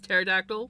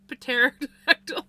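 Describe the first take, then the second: First: The initial P is completely silent. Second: The initial P is partly sounded. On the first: The speaker calls it right. "the P is silent" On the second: The speaker calls it wrong. "did you hear me almost pronounce it?"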